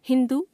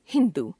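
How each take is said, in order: First: हिंदू with its final vowel length wrong, rising; wrong pronunciation. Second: Said in the usual way. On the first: Shown as a demonstration. Teacher showing a u-vowel error, हिंदू with altered final vowel. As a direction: misjudge the length of the last u in हिंदू. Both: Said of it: "अशुद्ध".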